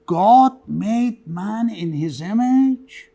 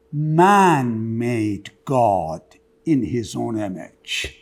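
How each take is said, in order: First: Slow, deliberate quote of the saying; quoted saying. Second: "Man made God" very slow, each word weighed, then lower; reversed saying. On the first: Lecturer to class: read the original saying, slow and measured. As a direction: lay out "God made man" evenly and slowly. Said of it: "He starts with". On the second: Lecturer to class: flip the saying, very slow and weighty. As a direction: drag out "Man made God", drop low on "in his own image". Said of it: "maybe you didn't mean that". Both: Shown as a demonstration.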